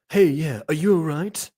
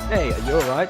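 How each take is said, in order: First: It is said in a put-on Chad voice. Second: It is said in a plain, ordinary voice.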